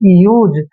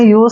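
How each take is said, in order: First: The final consonant is a voiced z sound. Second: The final consonant is an unvoiced s sound. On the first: The speaker calls it right. "जब भी एस से पहले यू आता है तो एस का उच्चारण जय करते हैं" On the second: The speaker calls it wrong. "आपने यूज नहीं पढ़ना है"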